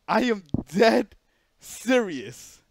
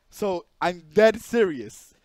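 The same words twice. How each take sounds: First: "dead" and "serious" slow, louder and deliberate; stress on dead serious. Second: Said in the usual way. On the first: Shown as a demonstration. Insisting to his viewers he isn't lying, slow heavy stress on "dead". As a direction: lean on "dead", then let "serious" drop.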